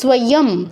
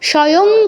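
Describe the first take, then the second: First: The s is followed by a clear w sound. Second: The s is said without a following w sound. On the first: The speaker calls it right. "ইয়টা পূর্ণ উচ্চারণ হবে" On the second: The speaker calls it wrong. "স্বয়ং কেউ বলবো না"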